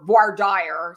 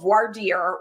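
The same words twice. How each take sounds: First: "voir dire" anglicized, dire rhyming with "fire"; non-French pronunciation. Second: "voir dire" said French-style, dire like "deer"; French pronunciation. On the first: Lawyer giving listeners the alternative term, anglicized pronunciation. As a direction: say "voir dire" with an English long-i dire. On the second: Lawyer teaching listeners the term, French pronunciation. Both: Shown as a demonstration. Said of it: "not do the French pronunciation".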